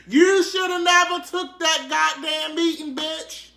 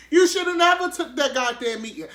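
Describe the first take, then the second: First: High, loud mock lament; hammed-up outraged shout; mock wailing yell. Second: High, loud fake crying wail; badly faked tearful lament; mock sobbing. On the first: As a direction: wail it like a scandalized fan. Mock-scolding R. Kelly over meeting. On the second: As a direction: sob the line in hammed-up despair. Repeats lament in mock tears.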